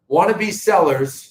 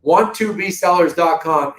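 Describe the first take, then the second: First: "Wannabe Sellers" slurred with a Boston accent. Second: "Want to be" as three separate words; careful pronunciation. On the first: Host slipping on the website name, Boston accent. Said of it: "geez, there's my Boston accent". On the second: Host giving viewers the real website, "Want to be" carefully separated. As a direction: pronounce "Want to be" in full, not "wannabe". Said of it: "I'm not even joking". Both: Real, not acted.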